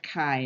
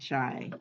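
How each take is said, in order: First: The word starts with a hard k sound. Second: The word starts with a ch sound. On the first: The speaker calls it right. "It's pronounced chi" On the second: The speaker calls it wrong. "not chi"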